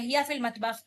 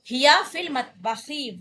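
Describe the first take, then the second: First: The last word ends without a final vowel. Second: The last word ends with a short vowel. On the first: "इस तरह बोला जाता है रवानगी के साथ" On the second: "हम आखिरी हरकत को जबान से अदा करेंगे"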